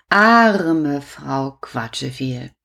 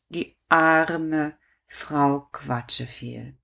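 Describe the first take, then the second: First: Pitying. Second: Pitying sigh. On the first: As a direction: sigh it out with pity. (bedauernd und langsam) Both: Acted.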